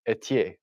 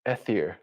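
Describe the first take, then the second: First: The name is said with French sounds. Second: The name is said with English sounds. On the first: The speaker calls it right. "it's French, so it's Etier" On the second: The speaker calls it wrong. "I know all you guys are thinking Ethier"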